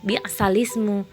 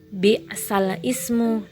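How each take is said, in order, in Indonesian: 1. Vokal langsung menyambung ke lam tanpa hamzah. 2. Hamzah terdengar sebelum lam. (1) "akan dibaca naq dengan bacaan bisalismu" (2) "kita lihat di sini"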